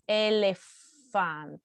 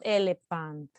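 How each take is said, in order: First: The middle consonant is a hissing f sound. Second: The middle consonant is a popping p sound. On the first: The speaker calls it right. "so it's elephant" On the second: The speaker calls it wrong. "It's not elephant. It's not the p sound"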